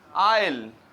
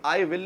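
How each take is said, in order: First: The words merge into one short syllable. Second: Two full separate words are said. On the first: The speaker calls it right. "वो लोग कहते हैं आइल" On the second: The speaker calls it wrong. "कभी भी आई विल नहीं बोलते"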